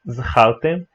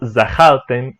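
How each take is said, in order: First: No full vowel follows the first consonant. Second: A full 'a' vowel follows the first consonant. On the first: This is the formal pronunciation with shva. "e não zachaltem" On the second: This is the common everyday pronunciation. "Ou zachaltem"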